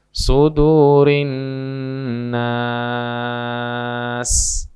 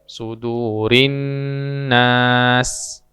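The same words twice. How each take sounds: First: The vowel in nas is held very long. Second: The vowel in nas is held briefly. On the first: "atau enam" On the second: "boleh dibaca dua"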